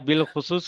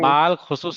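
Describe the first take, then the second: First: The first syllable is pronounced 'bil'. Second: The first syllable is pronounced 'bal'. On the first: The speaker calls it right. "बिल खुसूस लिख पढ़ना है" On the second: The speaker calls it wrong. "बाल खुसूस नहीं पढ़ता है"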